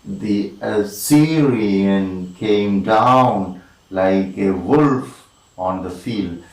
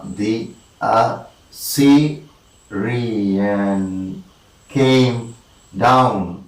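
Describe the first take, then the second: First: Slow connected line, long stresses on SYR of "Assyrian", "down", "wolf", "field"; flowing slow scansion of "Assyrian came down"; metrical verse reading. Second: "the A-ssy-ri-an came down" in separate slow beats; halting, drawn-out metrical count; syllable-by-syllable scansion. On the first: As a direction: recite in anapaests, stretching "down" and "wolf". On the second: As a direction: isolate each syllable, with long pauses. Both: Shown as a demonstration. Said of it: "two unstressed followed by one stressed".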